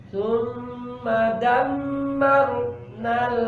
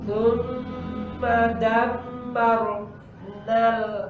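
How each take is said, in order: The two takes are said the same way.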